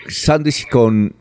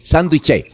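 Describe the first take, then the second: First: "sándwich" said the English way, with a W sound and slowly; English-style sandwich. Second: "sándwich" said as "sánduiche", pitched higher; Spanish-style sánduche. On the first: Caller showing the sign's English spelling, slow English-style sound. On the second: Caller reading the Spanish spelling to the professor, sounded out as "sánduiche". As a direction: say "sándwich" just as it looks, as "sánduiche". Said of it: "así como suena". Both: Shown as a demonstration.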